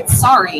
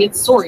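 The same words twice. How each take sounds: First: Sorry has an A vowel, American style. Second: Sorry has an O vowel, Canadian style.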